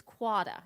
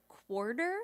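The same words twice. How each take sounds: First: "quada" with no R and a wide ah, KWAH-da; Cape Cod quarter. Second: Said in the usual way. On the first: Shown as a demonstration. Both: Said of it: "when they would say words like".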